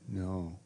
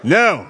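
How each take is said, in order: First: It is said quietly. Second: It is said loudly.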